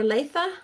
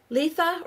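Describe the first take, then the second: First: LETHA said LAY-tha, ay in the first syllable; second pronunciation guess. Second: LETHA said LEE-tha, long ee in the first syllable; first pronunciation guess. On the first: Host offering another guess at the name, Letha as LAY-tha. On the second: Host guessing a viewer's name, Letha as LEE-tha. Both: Shown as a demonstration. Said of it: "Letha or Letha".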